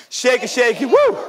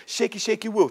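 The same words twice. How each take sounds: First: Shaking branches. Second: Said in the usual way. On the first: Acted. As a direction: chant it and leap up on "woo". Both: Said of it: "started shaking like this".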